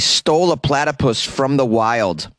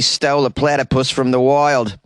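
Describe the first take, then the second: First: It is spoken in the speaker's ordinary accent. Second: It is spoken in a put-on Australian accent.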